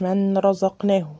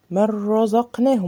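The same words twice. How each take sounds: First: من رزقناه with the noon said clearly; demonstrating the mistake in من رزقناه; wrong pronunciation. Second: من رزقناه with the noon vanishing into a doubled ra; tajweed reading of من رزقناه; correct recitation. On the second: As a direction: recite من رزقناه merged, no hum. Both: Shown as a demonstration. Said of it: "ما قلتش من رزقناه".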